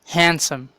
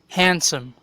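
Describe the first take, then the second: No difference in how they are said.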